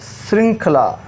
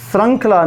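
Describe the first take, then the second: First: श्रृंखला said with i, "srinkhla"; correct vowel. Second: श्रृंखला said with a short a, "srankhla"; wrong vowel. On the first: Teacher correcting the word, i sound. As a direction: give श्रृंखला a clear "srin" opening. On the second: Teacher showing the mispronunciation, a for i. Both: Shown as a demonstration. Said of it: "श्रृंखला नहीं".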